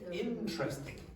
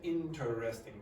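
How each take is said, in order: First: The vowel after the T is dropped. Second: The vowel after the T is clearly pronounced. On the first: The speaker calls it right. "So that E disappears after T" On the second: The speaker calls it wrong. "that's not how native speakers generally pronounce it"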